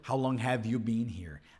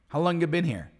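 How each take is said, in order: First: The word 'have' is fully pronounced. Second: The word 'have' is dropped entirely. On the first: This is the form written in textbooks. "a gente fica aprendendo o que está escrito no livro" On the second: This is how people normally say it in conversation. "People will say"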